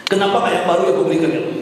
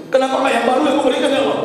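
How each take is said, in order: First: Quick, imitated plea to God; regretful plea. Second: Quick, high-pitched imitated cry of regret; regretful plea. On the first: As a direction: rush out the regret, only lightly raised. Dying man's regret, first take. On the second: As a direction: rush it out, pitched right up. Dying man's regret, second take.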